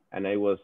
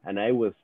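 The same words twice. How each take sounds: The two takes are said the same way.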